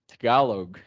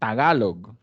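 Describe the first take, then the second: First: It is said with an American accent. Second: It is said with a Spanish accent. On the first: "if you say that in American accent" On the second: "if you say that in Spanish, it's the same thing"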